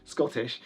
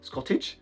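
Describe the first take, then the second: First: Said in the usual way. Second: "Scottish" ending in a "tch" sound, as a question; softly questioned "Scottish" with a "-idge" ending; slurred ending. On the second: Real, not acted. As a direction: query your own slip, "Scottish" said like "Scottitch". Queries own slip of the word.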